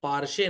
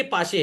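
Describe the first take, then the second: First: पारशे with an R sound before the श; पारशे, R slipped into the middle; mispronounced पाशे. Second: पाशे with no R before the श; पाशे, the R left out; correct pronunciation. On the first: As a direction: say पारशे, wrongly adding an R. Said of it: "पारशे नहीं है". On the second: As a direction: say पाशे, long आ straight into श. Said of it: "ये पाशे है". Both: Shown as a demonstration.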